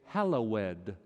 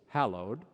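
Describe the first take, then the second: First: The word is said with three syllables. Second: The word is said with two syllables. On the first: "Some people put three syllables in the act of praise. They say" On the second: "The English word is two syllables"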